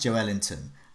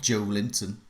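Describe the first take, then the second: First: The name ends sounding like Ellington. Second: The name ends sounding like Linton. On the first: The speaker calls it right. "he's pronounced Joe Ellington" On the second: The speaker calls it wrong. "not Joe Linton"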